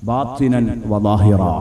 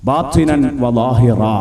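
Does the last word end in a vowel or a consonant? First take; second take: vowel; vowel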